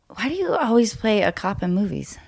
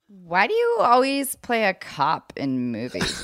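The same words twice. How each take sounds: First: The question sounds honest and genuinely curious. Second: The question sounds tense and accusing. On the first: The asker honestly wants to know. The speaker calls it right. "Number two is a fair, honest. I can tell there's honesty there. There's a real just inquisitiveness" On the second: The asker seems to be attacking him. The speaker calls it wrong. "But the tightness in my chest was real on number one"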